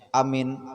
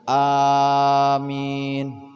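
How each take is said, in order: First: Both vowels are short. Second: Both vowels are long. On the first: It means a sense of safety. "Kalau dipendekkan awalnya, dipendekkan akhirnya" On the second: It asks that the prayer be answered. "awalnya panjang, ... panjang akhirnya"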